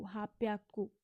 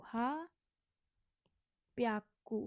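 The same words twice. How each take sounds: First: Said in the usual way. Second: हाप्याक्कू stretched very slowly, each syllable held; very slow model of हाप्याक्कू; slowed-down demo. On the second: Shown as a demonstration. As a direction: draw हाप्याक्कू out for the class. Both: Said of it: "तो हा, हाप्याक्कू".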